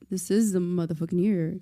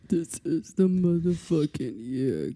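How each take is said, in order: First: It is said in the speaker's normal voice. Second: It is said in Josh's put-on voice.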